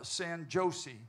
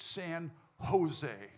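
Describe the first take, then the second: First: Jose begins with a hard J sound. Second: Jose begins with a breathy H sound. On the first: The speaker calls it wrong. "starts with a J, but it's not pronounced like that" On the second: The speaker calls it right. "J is pronounced H"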